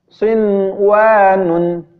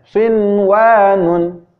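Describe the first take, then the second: No difference in how they are said.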